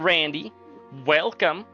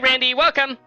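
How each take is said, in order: First: It is said in a plainer, ordinary reading voice. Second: It is said in a put-on character voice.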